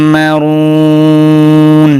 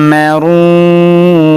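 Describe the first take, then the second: First: মারুন held very long at the stop; slow chanted pause-form; three-alif stretch. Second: মারুন with the vowel held three counts; slow chanted pause-form; three-alif stretch. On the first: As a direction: stretch the vowel long before stopping. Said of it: "তিন আলিফ টান হবে". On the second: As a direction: draw the vowel out very long. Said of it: "ওয়াকফ করলে তিন আলিফ টান হবে". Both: Shown as a demonstration.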